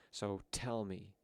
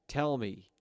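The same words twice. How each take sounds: First: Slow, deliberate, menacing; slow menacing demand. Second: Sudden loud, higher shout of tell; loud demand. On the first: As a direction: drag the words out threateningly. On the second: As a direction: bark tell hard, snapping at them. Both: Acted.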